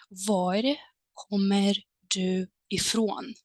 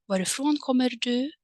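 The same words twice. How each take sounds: First: Var kommer du ifrån said slowly, whispered and drawn out; slow clear model question. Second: Said in the usual way. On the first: Shown as a demonstration. Teacher slowly modelling Var kommer du ifrån for learners. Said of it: "you might as well use the following structure". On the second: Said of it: "But the meaning is exactly the same".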